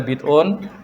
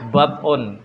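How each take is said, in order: First: The vowel after the b is 'i'. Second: The vowel after the b is 'a'. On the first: "bid'un bisa dibaca bid'un" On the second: "bisa dibaca dengan bad'un, dengan memfathah ba-nya"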